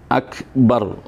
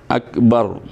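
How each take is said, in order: Both takes have the same delivery.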